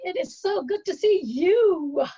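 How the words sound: The word "you" carries the stress.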